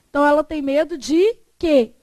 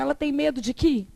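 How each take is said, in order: First: The last word ends with an 'eh' vowel. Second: The last word ends with an 'ee' vowel. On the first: The speaker calls it right. "é impossível. Então" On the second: The speaker calls it wrong. "Você conseguiria falar assim"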